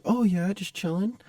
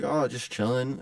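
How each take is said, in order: First: High, drawn-out echoing reply; high-pitched mock voice; timid stranger. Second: Said in the usual way. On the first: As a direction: mimic the awkward guy slowly, up high. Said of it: "talking like this".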